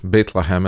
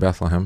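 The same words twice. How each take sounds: First: It is said with a foreign, non-English pronunciation. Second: It is said with the usual English pronunciation. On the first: "as I called it" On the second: "as we say in English"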